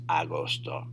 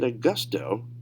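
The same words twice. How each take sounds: First: "agosto" with open a and round o, "ah-GOS-to"; Spanish pronunciation. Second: "Augusto" with an English "uh-GUS-to"; English-biased pronunciation. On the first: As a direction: say "agosto" with pure Spanish vowels. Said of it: "make sure it's agosto". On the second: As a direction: say "Augusto" as an English reader would, short u in the middle. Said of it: "English training coming into effect". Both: Shown as a demonstration.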